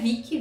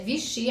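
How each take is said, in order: First: The middle consonant is a k sound. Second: The middle consonant is an sh sound. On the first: The speaker calls it wrong. "não é Vicky" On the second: The speaker calls it right. "É Vichy, a pronúncia correta"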